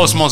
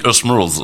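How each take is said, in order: First: The name is said with a French accent. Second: The name is said with an American accent. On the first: This is not how it is said in the United States. The speaker calls it wrong. "On ne dit pas Osmose là-bas" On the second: This is how it is said in the United States. The speaker calls it right. "on dit Osmose"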